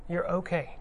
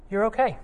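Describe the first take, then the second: First: Softer, falling "You're okay"; soft reassurance. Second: Higher, bright-voiced "You're okay"; lifted reassurance. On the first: Retold or imitated. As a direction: let "okay" settle down quietly. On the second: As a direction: lift "okay" up high to reassure. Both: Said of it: "As I'm fond of saying".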